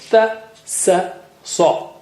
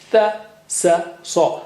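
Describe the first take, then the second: First: Each of the three syllables starts differently. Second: The same.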